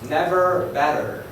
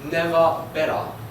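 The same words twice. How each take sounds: First: It is said in an American accent. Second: It is said in an Australian accent. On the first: "In the United States" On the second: "And in Australia"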